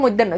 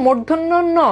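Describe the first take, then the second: First: মধ্যাহ্ন said as "moiddenno", without the r; quick colloquial "mod-den-no" for মধ্যাহ্ন; common mispronunciation. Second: মূর্ধন্য ন sounded in full as "mur-dhon-no no"; correct pronunciation. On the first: Teacher quotes what some people call the letter, colloquial mispronunciation. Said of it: "কেউ কেউ বলে". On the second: Teacher corrects students on the letter's name, careful full pronunciation. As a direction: give every syllable of মূর্ধন্য ন, with the r and dh. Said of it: "এটার উচ্চারণ হচ্ছে". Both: Shown as a demonstration.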